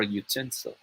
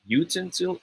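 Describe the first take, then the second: First: Utensil as yoo-TEN-sil; stress on second syllable. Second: Utensil as YOO-ten-sil; stress on first syllable. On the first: Tutor asks anyone to choose, second-syllable stress. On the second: Tutor asks anyone to choose, first-syllable stress. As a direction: lean on the u of utensil. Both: Shown as a demonstration. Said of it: "This one is a matter of stress".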